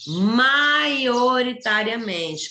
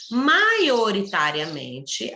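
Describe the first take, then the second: First: "Maioritariamente" very slow, a little higher and louder, each syllable stretched; "Maioritariamente" bem devagar e com ênfase; stressed key word. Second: "Maioritariamente" said slowly, syllable by syllable; "Maioritariamente" dito bem devagar; slow spelled-out word. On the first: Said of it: "quer dizer que a maioria". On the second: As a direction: read "Maioritariamente" out slowly for dictation. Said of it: "Maioritariamente, quer dizer que". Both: Shown as a demonstration.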